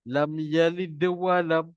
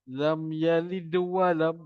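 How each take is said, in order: No difference in how they are said.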